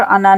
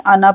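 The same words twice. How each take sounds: First: अना with the final aa lengthened; long final vowel. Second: अना with both vowels short, alif silent; short final vowel. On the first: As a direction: mistaken अना with a long ending. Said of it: "यहाँ पर अना नहीं". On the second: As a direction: say अना as a-na, ending not stretched. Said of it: "अना पढ़ना है". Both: Shown as a demonstration.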